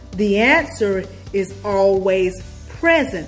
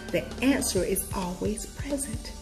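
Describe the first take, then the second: First: The sentence is said loudly. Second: The sentence is whispered quietly. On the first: The speaker calls it right. "I need to say it louder" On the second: The speaker calls it wrong. "I was whispering there"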